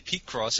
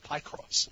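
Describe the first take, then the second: First: The first syllable sounds like 'peek'. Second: The first syllable sounds like 'pie'. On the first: This is the speaker's own way of saying it. "I say peak cross" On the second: This is how a co-host says it. "Shane says pie cross"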